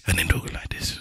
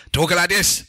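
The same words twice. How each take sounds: First: Dropped to a low whisper; mock mumbling. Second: Pitched up from the last take; mock uneven delivery. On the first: Co-host mimicking friends' poor mic levels, whispered. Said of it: "you people talking like this". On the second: Co-host moaning about people's mic levels, raised voice. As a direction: imitate co-hosts talking up into the mic. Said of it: "I give up with you people talking". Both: Shown as a demonstration.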